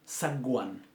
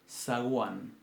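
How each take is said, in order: First: The g is a hard stop sound. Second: The g is a soft fricative sound. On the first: The speaker calls it wrong. "suena antinatural" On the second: The speaker calls it right. "es fricativa"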